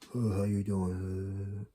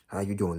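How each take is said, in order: First: It is said with weak, limp energy. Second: It is said with strong, confident energy.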